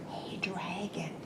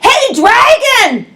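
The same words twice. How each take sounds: First: It is whispered very softly. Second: It is shouted very loudly.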